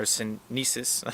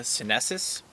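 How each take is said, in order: First: Sinensis with a long "ee", drawn out slowly; alternative pronunciation attempt. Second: Sinensis with a short "eh" in the middle; first pronunciation attempt. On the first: Vlogger unsure of the plant name, slow alternative pronunciation attempt. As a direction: say "sinensis" slowly as sin-NEE-siss. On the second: Vlogger trying out a tea plant's scientific name, first pronunciation attempt. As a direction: say "sinensis" as sih-NESS-iss. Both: Shown as a demonstration. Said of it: "not sure how, how to properly say it".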